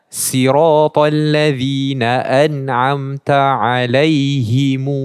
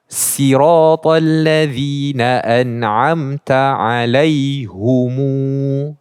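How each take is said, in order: First: The h takes an i vowel: alaihimu. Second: The h takes a u vowel: alaihumu. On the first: "himu dengan mad kepada mimnya" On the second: "bukan alaihim tapi menjadi alaihu"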